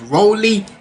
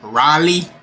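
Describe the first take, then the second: First: It is said like 'Rollie', with an 'oh' vowel. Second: It is said like the city name Raleigh. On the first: The speaker calls it right. "it's roly" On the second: The speaker calls it wrong. "the certain words of how she pronounces them"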